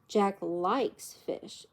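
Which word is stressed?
likes. The stress falls on the word likes. It is false that he dislikes it. "It's not true that he doesn't like it"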